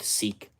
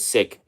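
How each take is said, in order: First: The vowel is long, as in 'seek'. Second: The vowel is short, as in 'sick'. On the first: The speaker calls it wrong. "It's not seek" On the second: The speaker calls it right. "I think it's pronounced as sick"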